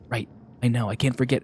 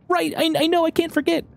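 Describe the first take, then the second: First: It is said in the reader's normal voice. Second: It is said in a put-on, Kermit-like character voice.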